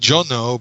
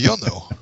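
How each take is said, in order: First: The name begins with a J sound. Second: The name begins with a Y sound. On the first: This is the usual English form. "you're Jono" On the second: This is the original form. "but you're really Yono"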